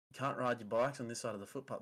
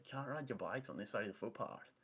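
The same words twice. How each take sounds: First: Said in the usual way. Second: Mocking Canadian accent; put-on Canadian twang, lightly douchey. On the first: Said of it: "he's like". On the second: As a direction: imitate an obnoxious Canadian telling someone off. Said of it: "saying it in, like, a douchey Canadian accent".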